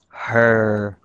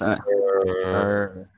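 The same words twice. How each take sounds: First: The word is drawn out at normal pitch. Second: The word is drawn out in a lowered, deep voice. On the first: "it has to be, like, elongated" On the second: "drop our tone of voice. So you'd be talking like this"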